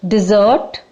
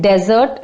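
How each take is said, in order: First: Dessert stressed on the second syllable; sweet-dish pronunciation. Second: Desert stressed on the first syllable; sandy-place pronunciation. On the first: Teacher tells the sweet dish apart, dessert as "di-ZERT". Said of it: "dessert is a sweet dish". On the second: Teacher tells Registan from the sweet dish, desert as "DEZ-ert". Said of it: "and desert is Registan". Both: Shown as a demonstration.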